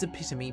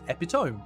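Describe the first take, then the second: First: The word is pronounced differently from its spelling. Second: The word is pronounced just as it is spelled. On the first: The speaker calls it right. "But no, it's epitome" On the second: The speaker calls it wrong. "Because that's how it reads"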